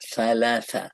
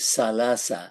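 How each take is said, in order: First: It has a th sound, tongue at the teeth. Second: It has an s sound, tongue inside. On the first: The speaker calls it right. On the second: The speaker calls it wrong.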